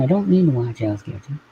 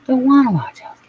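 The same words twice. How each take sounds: First: Said in the usual way. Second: Higher, whiny stress on wanna; whiny refusal. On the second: Real, not acted. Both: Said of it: "Not watching Hell's Kitchen".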